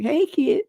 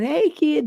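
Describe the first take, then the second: First: Put-on "Hey, kid" pitched higher, fonder, in dad's voice; dad's greeting again. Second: Put-on a higher, light "Hey, kid" as dad said it; imitating dad's greeting. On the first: Host echoing how his father always called him, higher. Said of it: "That's how he started to call me". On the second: Host imitating his father's phone greeting, lightly higher. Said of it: "He said".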